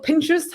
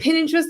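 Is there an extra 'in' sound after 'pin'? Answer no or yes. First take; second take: no; yes. First: It is said with no extra 'in' after 'pin'. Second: It is said with an extra 'in' after 'pin'. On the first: The speaker calls it right. "just Pinterest" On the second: The speaker calls it wrong. "lots of people add that extra kind of I"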